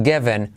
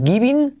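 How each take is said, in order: First: "given" said plainly as the right form; correct form. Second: "giving" said as the wrong model, a bit higher; wrong form. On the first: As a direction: give "given" as the correct model. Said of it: "sino given". ("given" como forma correcta) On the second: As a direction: say "giving" as the mistake to avoid. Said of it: "No es giving". ("giving" como forma incorrecta) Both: Shown as a demonstration.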